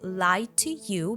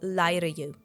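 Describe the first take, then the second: First: The consonant in 'to' is a clear T. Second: The consonant in 'to' sounds like D.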